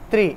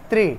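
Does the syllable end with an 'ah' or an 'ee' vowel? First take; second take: ee; ee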